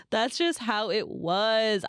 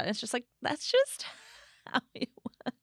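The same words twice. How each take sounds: First: "just" drawn out and leaned on; slow, stressed "just". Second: Said in the usual way. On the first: Shown as a demonstration. Repeating it slowly to friends, stressing "just".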